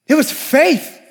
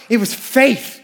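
First: "It was faith" said higher, with weight on "It"; raised, insistent "It was faith"; emphatic repeat. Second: Said in the usual way. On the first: Shown as a demonstration. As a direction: land the repeat harder on "It".

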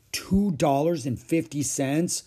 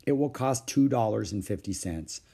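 First: Higher, slow, rising question; taken-aback child querying a big sum; dismayed echo. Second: Said in the usual way. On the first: Acted. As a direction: repeat the price in disbelief. Child echoes price in dismay.

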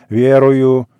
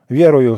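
First: Loud, drawn-out solemn ВЕРУЮ; louder, ceremonial profession of faith; solemn declaration. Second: Said in the usual way. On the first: A narrator's reading. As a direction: proclaim it solemnly, holding the word out. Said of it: "Торжественно повторяй". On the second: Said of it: "Громче. Торжественно повторяй".

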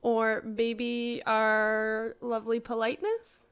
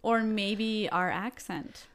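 First: Drawn out slowly, with a rise on "politeness"; slow playful mock pride; slow teasing aside. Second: Put-on deadpan, slow teasing about "our accent"; slow mock-serious aside; slow joking aside. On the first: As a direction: stretch it slowly like a playful boast. Topping the accent joke. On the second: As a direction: draw it out slowly, with weight on "Or". Joking about their Canadian accent.

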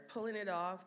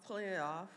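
No difference in how they are said.

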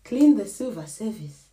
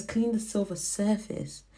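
First: "service" said as in table service, ending "-vis"; "service" pronounced sur-vis, the misheard version; misheard word. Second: "surface" said with an f, sur-fis; "surface" pronounced sur-fis, the word the mother meant; corrected word. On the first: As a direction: silver "service" with a clear v sound, sir-vis. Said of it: "I've been saying silver service because that's what it sounded like". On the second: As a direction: silver "surface" with a clear f sound, sur-fis. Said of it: "But what she was saying was". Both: Shown as a demonstration.

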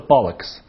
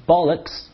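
First: Said in the usual way. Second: Bollocks said in an odd, fed-up voice; bad mood, dismissing nonsense: bollocks; grumpy British bollocks. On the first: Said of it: "他们不说bollocks". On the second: Shown as a demonstration. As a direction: scoff it out like a sulky Brit. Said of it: "而是bollocks这种感觉".

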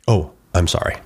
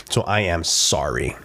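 First: Quick, reflexive courtesy sorry; automatic polite apology. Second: Slow, lower, weighted apology; mean it deep down, word by word; heartfelt apology. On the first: To a shopper whose cart he bumped, automatic and polite. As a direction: toss off an unfelt apology. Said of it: "but am I really sorry?". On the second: Owning up to what he's done, heartfelt and slow. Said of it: "Like, deep down". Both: Acted.

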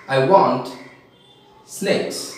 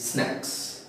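First: "snakes" with a long ay, meaning snacks. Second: Said in the usual way. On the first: Retold or imitated. Teacher mimics Odisha speakers asking for snacks, "snakes" with long ay. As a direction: say "snakes" for snacks, after a pause. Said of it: "they say e". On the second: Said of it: "Actually it is snacks".

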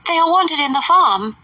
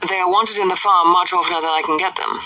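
First: "They are wanted in the farm" high and insistent; high fussy mother; Mrs Bennet. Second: Said in the usual way. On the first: A narrator's reading. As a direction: push the mother's pitch up on "farm".

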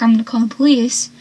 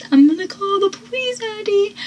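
First: Said in the usual way. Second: High-pitched imitation of a threat; mock threat. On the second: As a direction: call it out in a high put-on voice. Acts out Ursula's threat.

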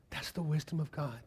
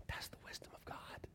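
First: Said in the usual way. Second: Barely-there whisper; hushed awe. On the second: Real, not acted. Preacher landing his point on God's wisdom, whispered. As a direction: whisper it like a revelation. Hushed refrain, then repeated aloud.

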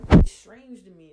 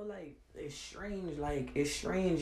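First: Suddenly loud, hammering the word strange; loud exasperated declaration; loud and emphatic. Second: Drops to a soft, slow murmur; soft slow disbelief; quiet and slow. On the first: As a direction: throw it out hard and loud. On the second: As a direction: let it sink, quietly and slowly. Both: Real, not acted. Ranting about strange people.

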